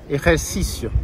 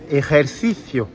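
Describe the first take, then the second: First: The c is said like a plain s. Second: The c is said like th, tongue out. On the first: This is how it is said in Mexico. "Toujours se, comme un S" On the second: This is how it is said in Spain. "En Espagne, on montre la langue"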